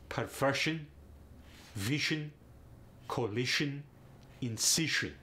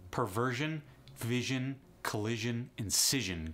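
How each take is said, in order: First: It is said in a Russian accent. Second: It is said in a plain accent.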